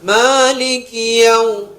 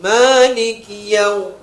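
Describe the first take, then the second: Both takes have the same delivery.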